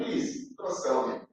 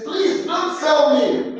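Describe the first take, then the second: First: Much softer, falling plea; soft broken plea. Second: High, slow, begging plea; high pleading cry. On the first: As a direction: let the plea sink away softly. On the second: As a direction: beg for your life, drawn out and high. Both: Acted. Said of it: "Joseph was pleading, begging".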